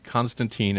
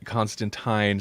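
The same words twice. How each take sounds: First: The name is said in an American way. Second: The name is said in a British way. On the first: This is the version used in the United States. The speaker calls it wrong. "kind of the uh, Americanized version" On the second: This is the version used in the UK. The speaker calls it right. "sounds very much like a, a British style pronunciation"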